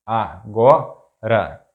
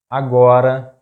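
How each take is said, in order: First: Agora slowly split, a - go - ra; syllable by syllable. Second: Agora as one word, loud stress on GO; stress on second-to-last syllable. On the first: Teacher breaking down an example word, agora slow in syllables. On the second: Teacher giving an example word, agora stressed on GO. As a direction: say agora joined up, punching GO. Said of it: "stressed syllable is the second to last". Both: Shown as a demonstration.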